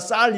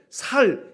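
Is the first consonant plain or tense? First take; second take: tense; plain. First: The first consonant is a tense s sound. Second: The first consonant is a plain s sound. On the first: The speaker calls it right. "물론 발음 다 쌀 이렇게 하는 사람들이 많습니다" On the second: The speaker calls it wrong. "이 격한 소리를 잘 못해서 살, 살 이렇게 말할 때가 있지요"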